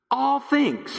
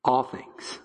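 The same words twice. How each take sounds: First: "All things" proclaimed high and ringing, stress on "All"; emphatic proclaim. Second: "All things" whispered, soft and awed. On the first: Acted. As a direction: lift "All things" up high, like a bold announcement. Preacher repeats the key phrase. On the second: Real, not acted. Hushed repeat after question.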